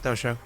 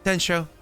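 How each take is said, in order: First: The first syllable is 'Do', with no n. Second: The first syllable is 'Den', with an n. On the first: The speaker calls it wrong. "not Dosho" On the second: The speaker calls it right. "Densho, not Dosho, to be clear"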